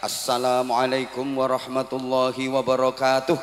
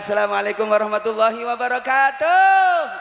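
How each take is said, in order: First: It is said in a formal MC style. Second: It is said in a showy singer style.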